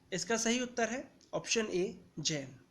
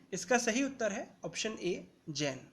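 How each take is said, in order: The two takes are said the same way.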